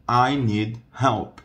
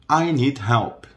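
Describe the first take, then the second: First: "I need help." said slowly, each word apart; slowed down. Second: Said in the usual way. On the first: Shown as a demonstration. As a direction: spell it out slowly for students. Slow take for learners.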